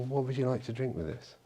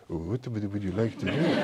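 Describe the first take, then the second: First: Said in the usual way. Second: Mock French waiter, softly spoken; French waiter accent. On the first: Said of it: "Well, he wouldn't say that". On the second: Waiter asks a diner what to drink, in a mock French accent. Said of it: "I won't do the accent again".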